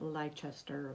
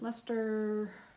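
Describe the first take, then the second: First: Every vowel in every syllable is pronounced. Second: Some vowels are dropped, giving a shorter word. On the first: The speaker calls it wrong. "pronounce all the vowels in all the syllables" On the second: The speaker calls it right. "I think that's how you pronounce it"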